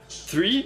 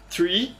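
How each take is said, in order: First: It begins with a th sound. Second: It begins with a th sound.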